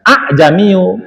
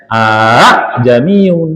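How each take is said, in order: First: A'jamiu read without the final n; wrong reading a'jamiu. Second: A'jamiun drawn out slowly, ending on a clear n; a'jamiun, slow, with the final n sounded; correct reading a'jamiun. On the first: Teacher showing a common misreading a'jamiu. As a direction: say a'jamiu, dropping the closing n. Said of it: "itu sering orang baca". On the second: Teacher showing the right reading a'jamiun, slow. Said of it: "padahal bacanya". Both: Shown as a demonstration.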